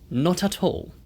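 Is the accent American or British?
British. It is said with a British accent. "영국식으로는"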